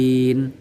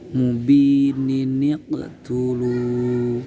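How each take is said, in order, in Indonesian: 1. Kata-kata itu dipisahkan tanpa nun sambung. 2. Kata-kata itu disambung dengan bunyi nun sambung.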